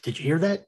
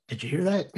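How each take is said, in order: Both takes have the same delivery.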